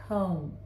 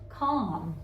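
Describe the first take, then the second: First: The vowel is long, the O saying its name. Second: The vowel is short, as in a rule-following reading. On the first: The speaker calls it right. "we have the O saying its name" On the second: The speaker calls it wrong. "it's not a calm"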